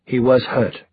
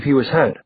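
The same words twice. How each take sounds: First: Short correction with stress on "was"; terse reply, "was" emphasised; curt, stressed WAS. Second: Said in the usual way. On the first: A narrator's reading. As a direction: lean on "was" and drop off at the end. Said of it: "Alec said shortly". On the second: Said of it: "said shortly".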